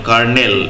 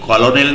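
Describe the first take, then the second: First: The word is said with two syllables, ker-nel. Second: The word is said with three syllables, ko-lo-nel. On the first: The speaker calls it right. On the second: The speaker calls it wrong. "উচ্চারণ কিন্তু কলোনেল নয়"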